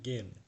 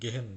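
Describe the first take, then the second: First: No h sound is heard mid-word. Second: An h sound is heard mid-word. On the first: The speaker calls it right. "গেন বলবেন" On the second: The speaker calls it wrong. "গেহেন না"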